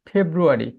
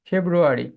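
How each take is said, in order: The two takes are said the same way.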